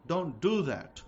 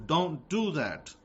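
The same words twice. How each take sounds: First: Said in the usual way. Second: "don't do that." said slowly, every word weighted; slow down and lay down the law; slow emphatic warning. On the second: Shown as a demonstration.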